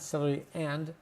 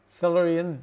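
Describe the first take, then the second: First: The word 'and' is said fully with its vowel. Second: The word 'and' shrinks to a short n sound. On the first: The speaker calls it wrong. "not celery and" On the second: The speaker calls it right. "the and turns into an N or to an apostrophe N"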